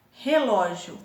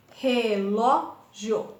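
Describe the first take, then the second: First: Said in the usual way. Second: RE - LÓ - GIO, very slow with gaps; teacher sounding out RE-LÓ-GIO; split into syllables. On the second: Shown as a demonstration. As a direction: say relógio in three slow beats, RE, LÓ, GIO. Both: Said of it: "Três sílabas".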